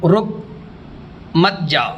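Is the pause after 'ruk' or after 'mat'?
after ruk. There is a pause after 'ruk'.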